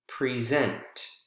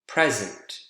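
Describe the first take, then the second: First: The stress is on the second syllable. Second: The stress is on the first syllable. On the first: It is used as a verb. "two-syllable verbs are usually stressed on the second syllable" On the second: It is used as a noun. "two-syllable nouns, more often than not, are usually stressed on the first syllable"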